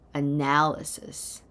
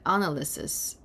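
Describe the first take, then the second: First: The stress is on the middle syllable. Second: The stress is not on the middle syllable. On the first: The speaker calls it right. "The emphasis is in the center" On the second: The speaker calls it wrong. "If you said analysis, maybe you're thinking of the verb analyze"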